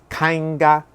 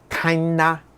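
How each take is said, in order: First: The g sound is clearly pronounced. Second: It is nasal and the g is silent.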